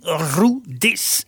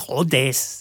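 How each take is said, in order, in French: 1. Le nom Rodez se prononce à l'occitane. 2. Le nom Rodez se prononce à la française. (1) "En occita, dizen rudes" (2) "en français, on dit rodes"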